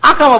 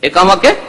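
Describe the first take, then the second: First: The word is said in a distorted way. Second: The word is said clearly with its first vowel. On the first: The speaker calls it wrong. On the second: The speaker calls it right.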